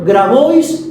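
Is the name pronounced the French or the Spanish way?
Spanish. The name is pronounced the Spanish way.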